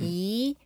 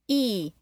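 First: The pitch goes up. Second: The pitch goes down. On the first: "E is rising" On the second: "E is falling"

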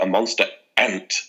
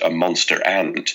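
First: A glottal stop separates ant from monster. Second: The words run together with no break before ant. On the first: "separates his words... he's got a bit of a glottal stop" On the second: "I'm quite a lazy talker, and when I all my words run together"

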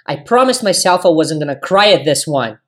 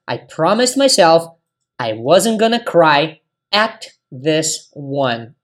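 First: It is said at a natural, faster speed. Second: It is said slowly and carefully.

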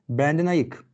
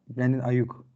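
First: The second vowel is unrounded, like Turkish ı. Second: The second vowel is rounded, like u. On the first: The name is turned into the Turkish word for sober. The speaker calls it wrong. "böyle bir anda ayık der gibi adama Türkçeleştirdim" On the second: The name is said the way the player says it. The speaker calls it right. "Ayık ne ya?"

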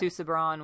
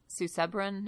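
First: The stress falls away from the syllable Seb. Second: The stress falls on the syllable Seb. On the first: The speaker calls it wrong. "Rather than" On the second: The speaker calls it right. "there's an emphasis on the second syllable there"

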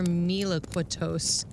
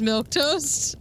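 First: The name is said in a fancy, elaborate way. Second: The name is said simply, like milk toast. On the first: The speaker calls it wrong. "I made it sound fancy" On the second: The speaker calls it right. "It's just Milktoast?"

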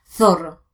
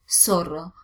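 First: The z is pronounced like th, Spanish style. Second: The z is pronounced like s, Argentine style.

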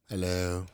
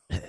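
First: It is said in a normal voice. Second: It is said in a low, sexy voice.

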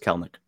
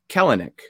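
First: The middle vowel is silent, giving two syllables. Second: The middle vowel is pronounced, giving three syllables. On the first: The speaker calls it right. "the E is silent in the middle. It's just Kelnick" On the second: The speaker calls it wrong. "I always used to say Kelenic"

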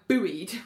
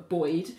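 First: It is said with an American pronunciation. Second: It is said with a British pronunciation.

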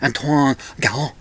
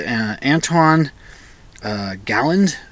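First: The name is said with French pronunciation. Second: The name is said with English pronunciation.

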